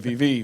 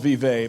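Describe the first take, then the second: First: The name is pronounced the local Indiana way. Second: The name is pronounced as it is spelled. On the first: "in Indiana we say Vevey" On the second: "It's spelled Vevey"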